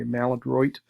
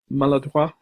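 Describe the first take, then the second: First: It is pronounced the way American English speakers say it. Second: It is pronounced the way French speakers say it. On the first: "we nifty Americans say maladroit" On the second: "they would say in French"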